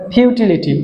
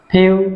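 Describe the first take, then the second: First: Said in the usual way. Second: futility in four separate syllables. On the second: Shown as a demonstration. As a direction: break futility apart for a class to count. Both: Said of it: "চারটা syllable আছে".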